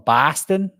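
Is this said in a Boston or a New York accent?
Boston. It is said in a Boston accent. "someone from Boston would say, I'm from Boston"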